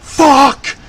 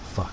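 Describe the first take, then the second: First: The word is said loudly and forcefully. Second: The word is said quietly and small.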